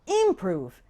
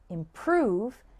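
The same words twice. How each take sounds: First: The stress is on the first syllable. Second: The stress is on the second syllable. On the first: The speaker calls it wrong. "Those sound completely wrong" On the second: The speaker calls it right. "has the stress on the second syllable"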